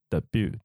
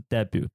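First: The stress is on the second syllable. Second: The stress is on the first syllable.

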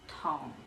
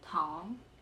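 First: The syllable has a low falling tone. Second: The syllable has a high rising tone. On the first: It means sugar as an ingredient. "黑糖的糖是念第四声桶" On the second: It means candy. "而棉花糖的糖是念桶"

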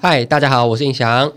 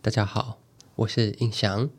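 First: It is said in a plain everyday voice. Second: It is said in a deep, warm radio voice.

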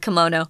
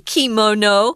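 First: It is said in an American way. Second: It is said in a Japanese-style way.

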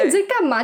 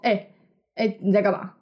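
First: It is said in a higher, brighter voice. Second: It is said in a lower, casual voice.

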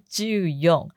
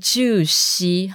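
First: Fourteen is read ending in yon. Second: Fourteen is read ending in shi. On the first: "也不是就用" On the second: "完全不是就西"

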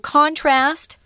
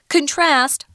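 First: The stress is on the first syllable. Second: The stress is on the second syllable.

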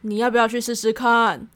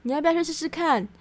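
First: It is a threatening warning not to go. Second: It is a sincere, encouraging suggestion.

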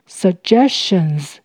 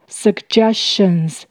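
First: The first g is a j sound. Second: The first g is a hard g sound. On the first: "把两个G 都念成J 的声音" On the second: "第一个G 发G，第二个G 发J"

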